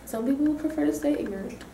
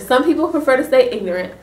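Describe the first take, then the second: First: It is said at a softer, normal volume. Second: It is said at a louder volume.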